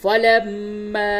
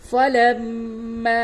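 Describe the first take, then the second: Both takes have the same delivery.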